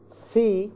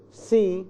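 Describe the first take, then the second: No difference in how they are said.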